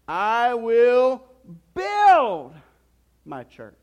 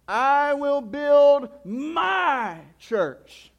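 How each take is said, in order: First: The stress falls on the word "build". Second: The stress falls on the word "my". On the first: "And then you can say it this way" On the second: "And then he says it this way"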